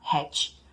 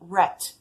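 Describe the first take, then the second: First: The word begins with an h sound. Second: The word begins with an English r sound. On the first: It sounds like the word for a hat. The speaker calls it wrong. "quando falada hat, acaba virando hat, de chapéu" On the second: It means the animal rat. The speaker calls it right. "a palavra rat, de rato"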